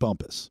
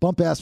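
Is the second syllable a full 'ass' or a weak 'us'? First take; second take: weak 'us'; full 'ass'. First: The second syllable is a weak 'us'. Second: The second syllable is a full 'ass'. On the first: The speaker calls it right. "That's probably how they pronounce it" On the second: The speaker calls it wrong. "it looks like bump ass"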